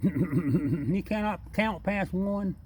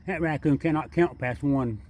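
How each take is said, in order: First: High, slow, laughing through the joke. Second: Said in the usual way. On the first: Real, not acted. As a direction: draw it out, cracking up at the raccoon.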